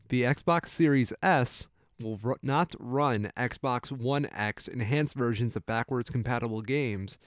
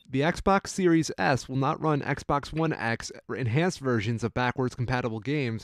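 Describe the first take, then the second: First: It is said a little more slowly. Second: It is said at a normal, quick pace.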